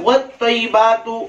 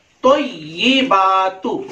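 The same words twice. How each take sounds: First: "वत्तय्यिबातु" quicker, as "wat-taybatu"; common mispronunciation. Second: "वत्तय्यिबातु" slow, as "wat-tay-yi-baa-tu"; slow teaching demo of "वत्तय्यिबातु"; correct recitation. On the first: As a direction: swallow the yi in "वत्तय्यिबातु". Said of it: "हमारा तलफ्फुज क्या है?". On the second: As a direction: draw out the doubled y and long baa in "वत्तय्यिबातु". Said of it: "आगे है". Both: Shown as a demonstration.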